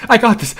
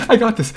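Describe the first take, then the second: No difference in how they are said.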